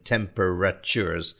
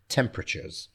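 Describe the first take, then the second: First: Each of the last syllables is said separately. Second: The last two syllables are run together. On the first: The speaker calls it wrong. "we're not saying temperatures" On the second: The speaker calls it right. "we're pushing the last two syllables together"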